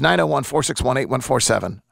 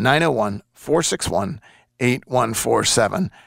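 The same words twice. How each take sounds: First: The number is said at a faster pace. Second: The number is said at a slower pace.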